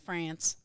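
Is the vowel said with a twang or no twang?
twang. The vowel is said with a nasal twang.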